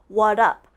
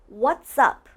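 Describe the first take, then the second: First: Both words are said, but the s is dropped. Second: Both words are said, blended together with the s. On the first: The speaker calls it wrong. "They take out the S" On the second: The speaker calls it right. "It's almost like what's and up are blended, like they're connected"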